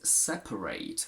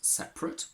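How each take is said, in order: First: The last syllable has a full diphthong vowel. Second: The last syllable has a weak schwa vowel. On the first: It is used as a verb. "with an a at the end instead of a schwa" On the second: It is used as an adjective. "when it's an adjective"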